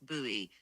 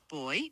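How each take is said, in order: First: The word is said the American English way. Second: The word is said the British English way. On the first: "In American English, it's buoy" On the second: "In British English, it's boy"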